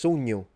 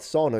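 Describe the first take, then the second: First: It is said with a thick Sicilian accent. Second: It is said with standard Italian vowels. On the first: "But Sicilian, it's sogno" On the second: "it's not sono"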